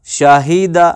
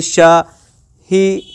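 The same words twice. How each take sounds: First: Said in the usual way. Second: Shahida slowly split as शा, ही, दा with pauses; Shahida sounded out slowly, one syllable at a time; broken into syllables. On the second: Shown as a demonstration. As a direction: separate each syllable of Shahida. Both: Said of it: "Shahida का अगर आप action करेंगे".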